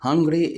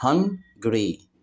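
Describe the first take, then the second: First: Said in the usual way. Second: "hungry" broken as hun, pause, gry; split into syllables. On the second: Shown as a demonstration. Teacher showing children two syllables, "hungry" split in two. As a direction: say "hungry" in two separate beats. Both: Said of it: "hungry تتقسم لمقطعين".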